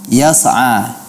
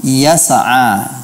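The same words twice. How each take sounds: First: Yas'a with a faint bounce on the ain; imitating the error again; slight qalqalah. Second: Yas'a with a little bounce on the ain; imitating the error, small echo after ain; slight qalqalah. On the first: Teacher repeats the student's qalqalah mistake. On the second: Teacher imitates the student's wrong qalqalah. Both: Shown as a demonstration. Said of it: "sedikit qalqalah pada huruf ain".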